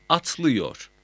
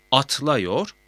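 First: "atlıyor" with ı before -yor, falling; narrowed vowel. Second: "Atlıyor" said as atlayor, rising; unnarrowed A vowel. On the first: ("atlıyor", daralmış ı ile) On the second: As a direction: keep an a before -yor in "Atlıyor". ("Atlıyor", ı yerine a ile) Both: Shown as a demonstration. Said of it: "A E ünlülerini daraltır".

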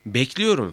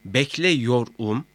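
First: Said in the usual way. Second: "bekliyorum" slowly in parts, bekle-yor-um; broken-down form. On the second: Shown as a demonstration. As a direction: split "bekliyorum" up with an e before -yor. ("bekliyorum", bekle-yor-um diye ayırarak) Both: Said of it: "şeklinde ayrıştırıldığında".

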